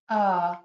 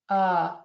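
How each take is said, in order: Both takes have the same delivery.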